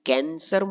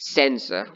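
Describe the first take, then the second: First: The word begins with a K sound. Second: The word begins with an S sound. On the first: The speaker calls it wrong. "ના મિત્રો, આને કેન્સર નહીં વંચે" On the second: The speaker calls it right. "આને કહેવાય સેન્સર"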